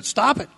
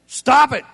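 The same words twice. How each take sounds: First: Said in the usual way. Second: Loud command. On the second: Shown as a demonstration. Pastor ordering sinners to quit, loud. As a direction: STOP barked out high and loud.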